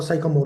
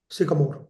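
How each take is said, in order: First: SYCAMORE with a "sigh" first syllable; first vowel of Sycamore as in "sigh"; Sycamore with long i. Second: SYCAMORE with a short "sick" first syllable; first vowel of Sycamore as in "sick". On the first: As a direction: say Sycamore as "SIGH-kuh-more". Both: Shown as a demonstration. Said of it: "whatever you pronounce it here".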